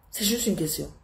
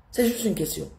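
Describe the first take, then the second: No difference in how they are said.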